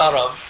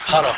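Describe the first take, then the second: First: The word begins with the throaty ayn sound. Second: The word begins with a breathy h sound. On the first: "ما بيقولوا عرب" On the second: "بيقولوا هرب"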